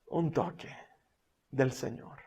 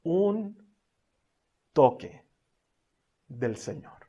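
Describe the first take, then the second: First: Hushed. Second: Slow, spaced. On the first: Repeating key phrase softly. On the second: Same phrase, slow, spaced. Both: Real, not acted.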